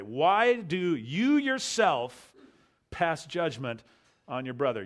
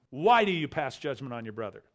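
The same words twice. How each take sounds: First: "you" held long and slow, stressed first. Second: Said in the usual way. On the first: Shown as a demonstration. Pastor showing the Greek emphatic "you", stress on "you". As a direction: lean hard and slow on "you" in "Why do you yourself". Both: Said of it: "So you can read it this way".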